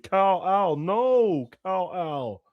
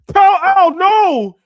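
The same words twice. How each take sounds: First: A hint of Gal Gadot, slightly higher, drawn out; mild mock Gal Gadot. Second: Screeching way up high and loud, mocking Gal Gadot's line. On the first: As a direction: lightly imitate her pleading Kal-El. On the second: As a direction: scream the line as a shrill parody of Gal Gadot. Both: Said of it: "she said in Justice League".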